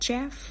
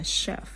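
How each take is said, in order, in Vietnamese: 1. Từ này bắt đầu bằng âm 'ch'. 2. Từ này bắt đầu bằng âm 'sh'. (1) "CH mà người ta không đọc là chef" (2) "mà người ta đọc là chef"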